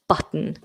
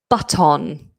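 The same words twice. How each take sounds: First: The final syllable has a weak schwa vowel. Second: The final syllable has a full, clear vowel. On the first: The speaker calls it right. "So give it that weak ending" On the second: The speaker calls it wrong. "you might hear"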